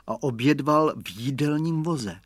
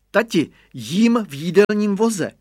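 First: Said in the usual way. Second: Put-on high, loud proud child's call; boy calling back from the cart; child's high shout. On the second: A narrator's reading. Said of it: "křikl Radovan".

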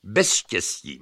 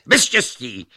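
First: Said in the usual way. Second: Louder, higher insistence; escalating bickering. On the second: A narrator's reading. Luck contradicts Reason, heatedly louder. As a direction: top the other person's volume.

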